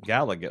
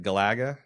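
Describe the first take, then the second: First: "Galaga" stressed on the first syllable, GAL-uh-guh; corrected pronunciation. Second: "Galaga" stressed on the middle syllable, guh-LAG-uh, rising; mistaken pronunciation. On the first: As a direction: try out "Galaga" with GAL up front. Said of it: "how do you pronounce it?". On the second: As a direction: ask back the wrong "Galaga", punching LAG. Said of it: "And I said Galaga?". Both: Shown as a demonstration.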